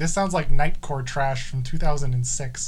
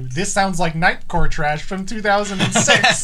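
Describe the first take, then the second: First: It is said in a disgusted, dismissive tone. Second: It is said in a delighted, approving tone. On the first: The speaker dislikes the song. "I thought it was terrible" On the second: The speaker loves the song. "It's the tone"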